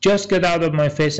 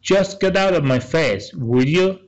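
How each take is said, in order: First: Said in the usual way. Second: Half the usual pace, pitched higher, each word spaced out; slow, raised dialogue read; slow, clear dialogue line. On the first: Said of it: "یعنی فقط ولم کن". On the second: Shown as a demonstration. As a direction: read it slowly for learners to catch. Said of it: "پگی میگه".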